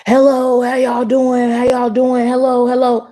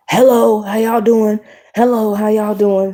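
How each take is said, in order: First: High-pitched mock yell, insistent; imitated yelling. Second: Imitated higher-pitched hello; pushy greeting. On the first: Stranger yells at couple who ignored him, mock yelling. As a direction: mimic someone calling right in their face. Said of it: "yelling at us in our face". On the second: Stranger greets a couple at McDonald's, imitated pushy greeting. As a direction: mimic an over-friendly stranger calling over.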